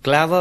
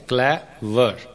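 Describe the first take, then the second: First: Said in the usual way. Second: "clever" split into two beats, clay and वर; syllable by syllable. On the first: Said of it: "दो syllables हैं". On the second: Shown as a demonstration. Teacher showing two syllables, "clever" broken as clay, वर. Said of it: "clever में दो syllables हैं".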